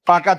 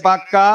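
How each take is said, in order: First: Said in the usual way. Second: পাক্কা with the k doubled and held, "pak-ka"; forceful doubled consonant. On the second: Shown as a demonstration. Teacher recapping the rule, পাক্কা said forcefully with doubled k. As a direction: press on the middle k of পাক্কা before "ka". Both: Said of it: "জোর দিয়ে উচ্চারণ করার জন্য".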